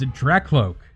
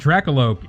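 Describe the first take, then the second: First: The name is said with two syllables. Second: The name is said with three syllables. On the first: The speaker calls it right. "it's Dracloak" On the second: The speaker calls it wrong. "It's not Dracoloak"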